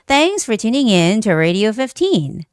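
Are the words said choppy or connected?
connected. The words flow together without stops between them. The speaker calls it right. "Do you see how the sound is all connected?"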